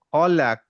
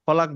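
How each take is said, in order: First: খলাক with a small echoing bounce on the final ক; qalqalah bounce. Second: খলাক with the final ক cut off flat and no echo; wrong, no bounce. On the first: Teacher shows the class the right reading with bounce. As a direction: let the last ক of খলাক pop out with a light echo. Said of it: "বলে একটু bounce করলাম". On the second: Teacher shows the class the wrong reading without bounce. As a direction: say খলাক the wrong way, the ক clipped dead. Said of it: "খলাক বলবো না". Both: Shown as a demonstration.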